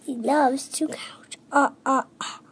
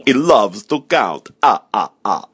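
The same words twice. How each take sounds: First: Soft, whispered echo of a puppet vampire; hushed copy with a tiny ah-ah-ah laugh; whispered imitation. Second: Slow, drawn-out puppet vampire who loves counting; theatrical slow delivery, then ah-ah-ah laugh; Count from Sesame Street. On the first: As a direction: copy the counting vampire under your breath. Child echoes the Count impression softly. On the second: Acted. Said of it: "talking to the Count from Sesame Street".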